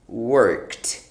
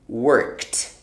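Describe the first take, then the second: Both takes have the same delivery.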